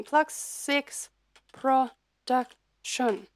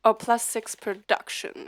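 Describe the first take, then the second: First: Plus Six Production said slowly and carefully; slow corrected name. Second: Said in the usual way. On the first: Real, not acted. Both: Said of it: "excuse me".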